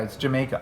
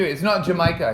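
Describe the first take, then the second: First: Jamaica said correctly, quietly; right Jamaica. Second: Jamaica said the wrong way. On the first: Host gives kids the correct Jamaica. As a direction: Jamaica as it should sound. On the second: Host mimics a wrong Jamaica for the kids. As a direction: mispronounce Jamaica on purpose. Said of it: "It's not Jamaica, it's Jamaica". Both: Shown as a demonstration.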